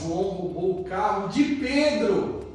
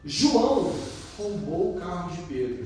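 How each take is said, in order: First: The emphasis falls on the word Pedro. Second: The emphasis falls on the word João. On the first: The victim deserves pity. "Coitado do Pedro" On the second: It was João, of all people, who did it. "nossa, João fez isso?"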